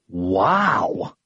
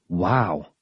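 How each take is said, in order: First: It is said with strong emphasis. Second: It is said plainly, without extra emphasis.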